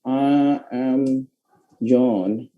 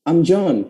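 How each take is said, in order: First: It is said as two full words, I am. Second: It is said as one short contracted syllable. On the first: "Biasanya kan kayak gini tuh" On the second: "Jadi I am itu bisa dibacanya am"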